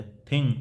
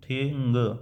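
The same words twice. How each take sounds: First: Said in the usual way. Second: thing stretched out into its separate sounds; word sounded out. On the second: Shown as a demonstration. Teacher demonstrating syllables to students, thing drawn out. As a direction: draw out thing, lingering through to the final g. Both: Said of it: "इस तरह से".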